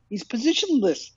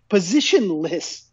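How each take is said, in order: First: Said in the usual way. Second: Positionless stretched out slowly, each syllable weighted; slow, deliberate Positionless hammering the point; slow emphatic repeat. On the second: Acted. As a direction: drag out Positionless to drive it home. Echoes the word, slowed for emphasis.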